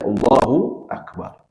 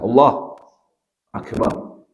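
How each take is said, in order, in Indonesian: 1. Kedua kata itu menyambung tanpa jeda. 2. Kedua kata itu terpisah oleh jeda. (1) "harus dibaca Allahu Akbar" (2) "Jangan terpisah"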